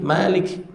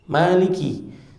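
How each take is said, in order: First: The first vowel is kept short. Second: The first vowel is drawn out long. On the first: It means king. "membacanya tanpa alif" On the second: It means owner. "dengan menambahkan alif"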